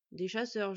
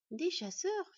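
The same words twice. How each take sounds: First: Said in the usual way. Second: High rising mock astonishment; feigned surprise. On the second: A narrator's reading. Boy fakes astonishment to the villager, rising high. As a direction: play at being amazed. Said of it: "en prenant l'air étonné".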